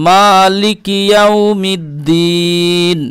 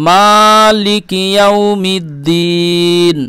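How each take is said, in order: The two takes are said the same way.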